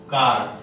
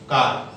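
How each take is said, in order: No difference in how they are said.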